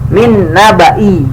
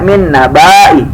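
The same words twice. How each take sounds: First: The vowel is kept short. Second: The vowel is drawn out long. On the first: The speaker calls it right. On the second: The speaker calls it wrong. "nggak boleh dibaca min nabai, nggak boleh"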